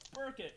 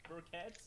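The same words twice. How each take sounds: First: The name is said in a plain English way. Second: The name is said in a French way. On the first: This is how the owner of the name says it. "He goes" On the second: This was the speaker's own guess. "I thought it might be Burkett, French"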